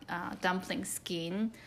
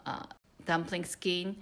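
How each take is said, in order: Both takes have the same delivery.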